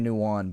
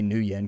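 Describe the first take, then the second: First: It sounds like one blended word, nuwan. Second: It sounds like two separate words, new yen. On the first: Someone else pronounces it this way. "I've heard somebody say Nuwan" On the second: This is how the speaker always says it. "but I say New Yen because it makes me happy"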